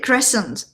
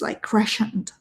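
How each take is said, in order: First: The middle is a plain 's' sound. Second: The middle has a French-style 'sh' sound. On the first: "say the sent part without the sh sound" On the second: "like a French pronunciation kind of influence"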